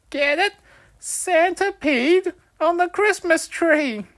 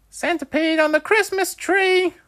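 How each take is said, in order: First: Very high, loud and slow; milk the joke with glee; excited punchline again. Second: Very high, loud gleeful shout; excited punchline. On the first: Wolfie repeating his punchline, very high, loud and slow. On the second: Wolfie delivering his joke's punchline, very high and loud. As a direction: land the punchline with delight. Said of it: "Wolfie exclaimed". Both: A narrator's reading.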